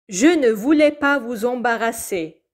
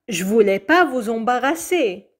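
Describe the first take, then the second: First: It is said at a normal, careful pace. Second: It is said faster, dropping the ne.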